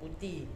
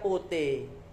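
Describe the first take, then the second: First: Putih is said in a southern Kidulan accent. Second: Putih is said in a Surabaya accent. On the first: "Orang Kidulan, Jombang dan Nganjuk, Kediri dan sebagainya putih" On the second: "Kalau orang Surabaya putih"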